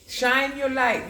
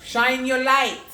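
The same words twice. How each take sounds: First: Slow, high, drawn-out urging; lingering high encouragement; slow stretched repeat. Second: Loud, high rallying call; loud call to shine. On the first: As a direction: stretch each word out as a slow blessing. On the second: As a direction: belt it out like a rallying cry. Urging encouragement. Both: Acted.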